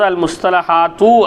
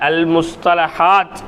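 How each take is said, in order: First: The final t is followed by a u vowel. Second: The word stops on the final t. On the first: The speaker calls it wrong. "அல் முஸ்தலஹாத்து என்னல்ல இல்லை" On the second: The speaker calls it right. "அவ்வளோதான்"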